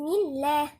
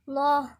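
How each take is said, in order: First: The L sound is light and thin. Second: The L sound is heavy and thick. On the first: The vowel before it is i. "اللام هنا مرققة" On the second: The vowel before it is a or u. "فخمنا اللام بتاعت لفظ جلالة الله"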